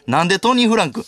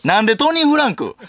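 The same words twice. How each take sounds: First: Said in the usual way. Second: Pitched-up baffled retort; louder, higher second take of the question; higher incredulous repeat. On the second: Shown as a demonstration. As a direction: throw the question up high in disbelief.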